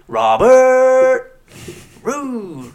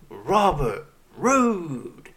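First: The stress is on the second syllable of Robert. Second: The stress is on the first syllable of Robert. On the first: The speaker calls it wrong. "he goes, ... why would you put the emphasis on the ert?" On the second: The speaker calls it right. "Instead of saying, say"

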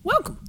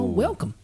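First: It is said in a high-pitched voice. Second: It is said at normal pitch.

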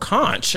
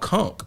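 First: The word is said the American way. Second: The word is said the Bahamian way.

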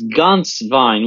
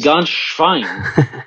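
First: The name ends with a plain 'vine' sound. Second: The name ends with a 'shvine' sound. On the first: The name means goose wine. The speaker calls it right. "His name is Ganschwein, which means in German, goose wine" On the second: The name means goose pig. The speaker calls it wrong. "You said Ganschwein, which means goose pig"

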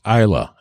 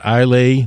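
First: The word ends with a short 'la' sound. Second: The word ends with a 'lay' sound. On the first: The speaker calls it right. "It is pronounced Isla" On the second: The speaker calls it wrong. "not Islay"

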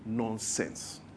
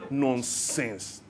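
First: It is said plainly, in an ordinary way. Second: It is said with Nigerian flair at the end. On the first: "we say it the way other people say it" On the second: "when a Nigerian says nonsense, they squeeze their face"

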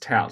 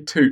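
First: The vowel rhymes with 'out'. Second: The vowel rhymes with 'boot'. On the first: The speaker calls it right. "I believe it's tout" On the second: The speaker calls it wrong. "But we should just say toot from now on"

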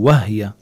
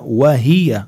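First: The h has no vowel after it. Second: The h is followed by a short i. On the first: The speaker calls it wrong. "بسمع كتير من الناس بيقولوا وهي" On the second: The speaker calls it right. "بدي حرك الهاء بالكسرة"

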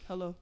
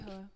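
First: It is said in a deep, rough voice. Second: It is said in a soft, quiet voice.

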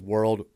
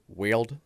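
First: The word has its usual vowel followed by R. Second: The vowel and R become an 'eel' sound. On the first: "she says world" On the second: "she struggles with it, but it's really cute"

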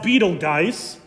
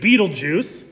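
First: The name does not sound like 'beetle juice'. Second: The name sounds like 'beetle juice'. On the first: "sometimes it's pronounced Betelgeuse" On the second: "I prefer the pronunciation Betelgeuse because I grew up in the 80s and I love that movie"

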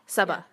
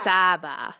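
First: The stress is on the second syllable. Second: The stress is on the first syllable. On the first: The speaker calls it right. "Kind of like emphasis on the ba" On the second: The speaker calls it wrong. "Because a lot of people emphasize the A"

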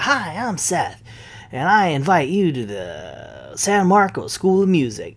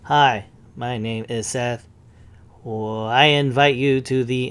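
First: It is said in a lively, snazzy way. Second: It is said flatly, with hesitation.

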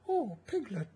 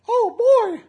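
First: It is said in a Winnie the Pooh voice. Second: It is said in a Mickey Mouse voice.

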